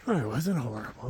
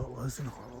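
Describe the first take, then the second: First: Said in the usual way. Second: Much softer, to himself; soft reassuring mutter. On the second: Real, not acted. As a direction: quietly reassure yourself.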